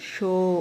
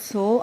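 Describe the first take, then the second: First: The consonant is an sh sound. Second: The consonant is a plain s sound. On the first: The speaker calls it right. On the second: The speaker calls it wrong.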